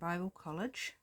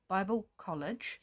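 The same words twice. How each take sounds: First: The words are run together and unclear. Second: Each sound of the words is clearly articulated. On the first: The speaker calls it wrong. "I didn't say that very well" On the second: The speaker calls it right. "Enunciate a bit better"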